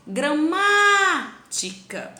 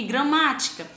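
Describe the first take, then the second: First: Gramática with MÁ loud, high and long; stress on MÁ. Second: Said in the usual way. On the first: Shown as a demonstration. Teacher demonstrates the tonic syllable, MÁ loud and drawn out. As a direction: hold and punch the MÁ in gramática. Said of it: "passei bastante tempo pronunciando essa sílaba".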